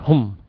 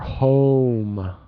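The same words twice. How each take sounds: First: The vowel is cut short. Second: The vowel is stretched out long. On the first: The speaker calls it wrong. "I think you said it kind of like home" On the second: The speaker calls it right. "need to stretch the vowel more"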